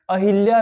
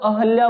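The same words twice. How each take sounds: First: अहिल्या with "i" after h; अहिल्या, middle vowel turned to "i"; mistaken pronunciation. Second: अहल्या with a plain short "a" after h; अहल्या, no "i" sound in the middle; correct pronunciation. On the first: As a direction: say अहिल्या as "a-hil-ya". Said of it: "लिखेंगे भी तो गलत हम". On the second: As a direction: say अहल्या as "a-hal-ya". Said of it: "अपने आप ही हम शुद्ध लिखेंगे". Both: Shown as a demonstration.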